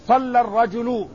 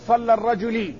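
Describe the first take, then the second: First: The last word ends with a u vowel. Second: The last word ends with an i vowel. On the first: The speaker calls it right. "الفاعل مرفوع" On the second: The speaker calls it wrong. "ولا تقل صلى الرجلي"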